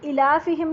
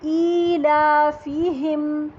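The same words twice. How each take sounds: First: The first vowel is short. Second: The first vowel is held long. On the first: The speaker calls it wrong. "इलाफिहिम नहीं बोलना है इसको गलती से" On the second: The speaker calls it right. "हमज़ा खड़ी ज़ेर जो है दो हरकत पर लंबी होगी"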